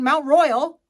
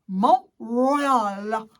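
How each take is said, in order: First: It is said in a plain English accent. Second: It is said in a dramatic French accent. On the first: "instead of saying Mount Royal" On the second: "the language that sounds like you're a dramatic poet"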